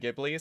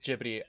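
First: The name is pronounced the English way. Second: The name is pronounced the Japanese way. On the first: "I was raised saying Ghibli, so I tend to say it in English" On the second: "In Japanese, it is Ghibli"

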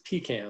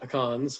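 First: Pecans is said the Southern way. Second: Pecans is said the California way.

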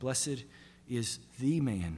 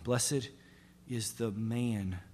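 First: The word 'the' is stressed. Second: The word 'man' is stressed.

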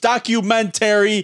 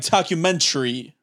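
First: The ending has two full syllables, like 'terry'. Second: The ending is squeezed into one syllable, like 'tree'. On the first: The speaker calls it right. "It's documentary" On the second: The speaker calls it wrong. "they pronounce it like documentary"

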